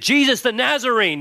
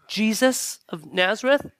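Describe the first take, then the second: First: It is said boldly and confidently. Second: It is said timidly and hesitantly.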